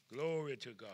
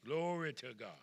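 Both takes have the same delivery.

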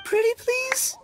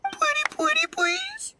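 First: Much higher pleading whine; whiny begging. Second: Over-the-top begging. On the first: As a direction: beg like a big kid. Itto begs Paimon to help. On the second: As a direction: whine it out, begging even harder. Itto begs harder. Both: Acted.

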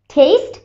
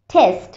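First: "টেস্ট" as "tayst", rising; long ei vowel. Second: "টেস্ট" as "tehst", lower and falling; short e vowel. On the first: Teacher contrasting taste with test, "টেস্ট" as "tayst". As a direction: say "টেস্ট" like English "taste", with an "ey" glide. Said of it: "এই সিম্বলটা produce করে এই sound". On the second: Teacher contrasting test with taste, "টেস্ট" as a lower "tehst". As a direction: say "টেস্ট" like English "test", plain "eh". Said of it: "এখানে এ". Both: Shown as a demonstration.

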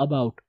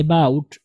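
First: "about" starting with uh, uh-bout; correct pronunciation. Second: "about" starting ay, ay-bout; common misreading. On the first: Shown as a demonstration. Teacher models the first sound, "about" as uh-bout. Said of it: "आ, आवाज़ ऊपर जाएगी". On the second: Retold or imitated. Teacher quotes how it gets read, "about" as ay-bout. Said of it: "इसको हम पढ़ते हैं about".

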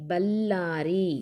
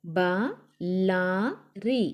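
First: "బల్లారి" as one word with a held L; pressed double L. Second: "బలారి" very slow, split as ba, la, ri; letter by letter. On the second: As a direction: sound out "బలారి" with long gaps between letters. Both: Shown as a demonstration. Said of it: "ఒత్తి పట్టి చదవాలి".

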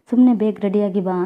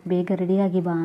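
First: Louder, pushing past her refusal; mother-in-law cuts off the argument and insists; insistent order. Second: Said in the usual way. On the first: A narrator's reading. Mother-in-law orders daughter-in-law to get ready, louder and insistent.

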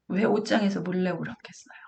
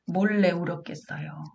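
First: Hushed, whispered 옷장에서; whispered question. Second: Said in the usual way. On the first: Shown as a demonstration. Asking parents why the child hid, whispered. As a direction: breathe the question like a secret.

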